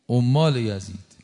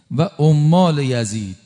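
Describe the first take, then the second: First: Said in the usual way. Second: عمال یزید drawn out, louder; عمال یزید loud and slow. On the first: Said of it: "repeated phrase, softer". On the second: Shown as a demonstration. Preacher denouncing Yazid's agents, loud and slow. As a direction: lean hard on عمال یزید. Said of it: "repeated phrase, first loud slow".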